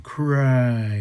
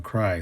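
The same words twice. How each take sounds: First: "Cry" called out higher and louder as an order; commanding cry. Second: Said in the usual way. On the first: Retold or imitated. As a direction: bark the order "Cry" at him. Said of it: "He's saying". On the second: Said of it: "He's telling him".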